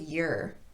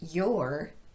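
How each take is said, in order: First: The word has a weak vowel. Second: The word has its full vowel. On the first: "to your" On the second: "I also reduced your"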